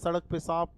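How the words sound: The words begin with a clear s sound. "जैसे हम कहते हैं"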